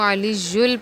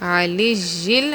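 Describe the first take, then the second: First: The vowel before the final L is 'u'. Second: The vowel before the final L is 'i'. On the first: The speaker calls it wrong. "लोग ज़्यादातर जो गलती करते हैं" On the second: The speaker calls it right. "नीचे ज़ेर पढ़नी है"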